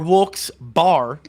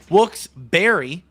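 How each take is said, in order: First: The second part sounds like a drinking bar. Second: The second part sounds like the fruit berry. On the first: "like a alcohol bar" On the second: "like the fruit"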